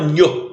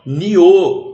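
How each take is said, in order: First: It is said with a palatal 'nh' sound. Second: It is said with a separate 'i' vowel. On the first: The speaker calls it wrong. "Você não fala nho" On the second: The speaker calls it right. "você fala nio"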